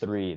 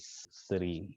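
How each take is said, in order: First: It begins with a 'th' sound. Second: It begins with an 's' sound. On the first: "instead of a three" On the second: "with a Russian accent"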